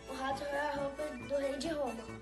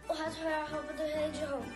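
First: It is said at a slow pace. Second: It is said at a fast pace.

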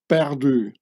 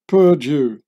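First: It is said with a French accent. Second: It is said with an English accent. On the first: "as in perdu" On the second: "pronounced perdu by an English speaker"

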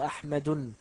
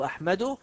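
First: The word ends with an added n sound. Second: The word ends without a final n sound. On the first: The speaker calls it wrong. "ولا أقول" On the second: The speaker calls it right. "أقول"

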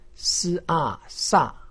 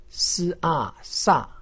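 First: The pitch falls sharply from high to low. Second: The same.

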